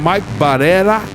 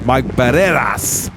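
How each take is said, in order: First: The name ends without a final S sound. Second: The name ends with a final S sound. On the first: The speaker calls it wrong. "without pronouncing the S" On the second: The speaker calls it right. "but it's Mike Barreras"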